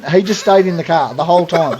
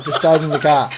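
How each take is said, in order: First: Laughing through the words; amused disbelief, laughing. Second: Said in the usual way. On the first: Real, not acted. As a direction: chuckle as you tell it. Amused at mate staying put.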